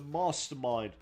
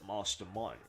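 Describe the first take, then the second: First: The word is said in the normal reading voice. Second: The word is said in an imitated celebrity voice.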